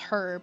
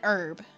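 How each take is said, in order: First: The word begins with an audible h sound. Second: The word begins with a vowel sound, no h. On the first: "some people do pronounce it as herb" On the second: "it sounds like it does"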